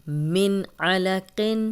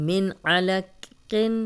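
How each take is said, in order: The two takes are said the same way.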